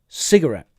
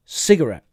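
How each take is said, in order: First: It is said the American way. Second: The same.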